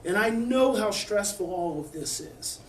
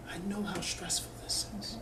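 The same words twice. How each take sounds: First: Said in the usual way. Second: Much softer, hushed and gentle; soft whisper. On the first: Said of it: "you may have to lower your voice". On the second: Shown as a demonstration. Mother soothing a stress-sensitive daughter, whispering softly. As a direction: barely breathe it to her. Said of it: "You may have to whisper".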